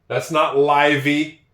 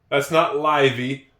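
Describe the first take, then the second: The two takes are said the same way.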